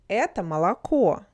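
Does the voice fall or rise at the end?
fall. The pitch falls at the end. It is stated as a fact.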